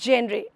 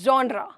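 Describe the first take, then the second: First: The first vowel sounds like 'eh'. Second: The first vowel sounds like 'ah'. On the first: The speaker calls it wrong. "It's not जेनरे" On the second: The speaker calls it right. "It's जॉनरा"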